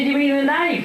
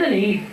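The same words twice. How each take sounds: First: Said in the usual way. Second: "knife" said as "neef"; "knife" rhymed with "leaf"; mispronounced knife. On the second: Acted.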